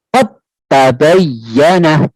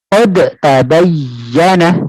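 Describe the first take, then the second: First: The d is held without an echoing release. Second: The d is released with an echoing bounce. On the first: The speaker calls it right. "cuma hanya disyiddah saja atau ditahan saja" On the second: The speaker calls it wrong. "Kalau sini dipantulkan ... Nah, tidak"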